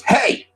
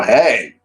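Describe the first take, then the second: First: High mock-eager call; all-caps exclamation. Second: Guarded answering hey, near usual pitch; wary reply. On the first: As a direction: blurt it out as if in capitals. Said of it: "All caps". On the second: Retold or imitated. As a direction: greet back without the enthusiasm. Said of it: "I go".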